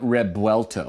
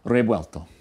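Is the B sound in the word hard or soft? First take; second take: hard; soft. First: The B is said as a hard stop. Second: The B is said soft, like a light v. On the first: The speaker calls it wrong. "it's not Rebuelto with a hard B" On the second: The speaker calls it right. "this is the best I could do"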